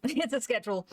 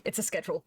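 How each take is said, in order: First: Laughing it out, pitched up. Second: Said in the usual way. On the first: Real, not acted. Streamer to chat about the artwork, laughing. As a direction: giggle through the words. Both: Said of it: "Quote unquote artwork".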